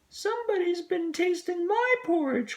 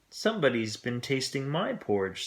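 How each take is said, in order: First: It is said in a tiny little voice. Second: It is said in a middle-sized voice.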